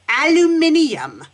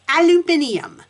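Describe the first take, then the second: The two takes are said the same way.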